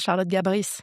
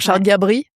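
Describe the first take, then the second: First: The final S of the surname is pronounced. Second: The final S of the surname is silent. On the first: The name sounds charismatic and memorable. The speaker calls it right. "on dit le S. Tu vois, voilà. Là, ça change tout" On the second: The name sounds unremarkable. The speaker calls it wrong. "pas de ouf"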